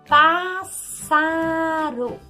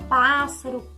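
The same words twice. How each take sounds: First: The word is said slowly, syllable by syllable. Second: The word is said at normal everyday speed. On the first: The syllables are being separated so they can be counted. "falar um pouquinho mais devagar" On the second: This is how the word is said in everyday speech. "a gente fala normal"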